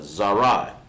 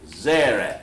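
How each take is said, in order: First: The word ends in an 'eye' vowel. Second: The word ends in a short 'eh' vowel. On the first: The speaker calls it right. "That's how you pronounce that" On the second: The speaker calls it wrong. "that's the Yiddish right there for it"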